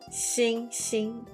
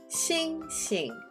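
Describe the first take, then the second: First: Both syllables stay high and level. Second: The second syllable is light and unstressed. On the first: "both stay up in the first tone" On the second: "you're going to make the second sound a lighter sound"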